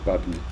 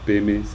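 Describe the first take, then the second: First: It is said as 'padme' with a d sound. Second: It is said as 'peme' with no d sound. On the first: This follows the Sanskrit transliteration. The speaker calls it right. "c'est padme" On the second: This is the habitual Tibetan reading. The speaker calls it wrong. "c'est pas pe me"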